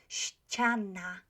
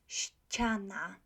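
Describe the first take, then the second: No difference in how they are said.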